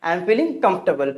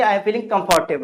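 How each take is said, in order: First: Comfortable said KUMF-tuh-bl; correct pronunciation. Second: Comfortable said kum-FAR-tay-bl; wrong pronunciation. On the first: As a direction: squeeze comfortable into three syllables, no "fort". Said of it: "क्या बोलेंगे?". (comfortable को "कम्फ़्टबल" बोलें) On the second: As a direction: say comfortable with a full "fart-table" ending. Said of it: "ना कि आप बोलेंगे". (comfortable को "कम्फ़र्टेबल" बोलें) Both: Shown as a demonstration.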